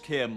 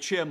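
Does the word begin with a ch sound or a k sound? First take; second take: k; ch. First: The word begins with a k sound. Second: The word begins with a ch sound. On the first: "others say it as Kim like how you pronounce Chimer" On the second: "like I'm saying it as in chimney"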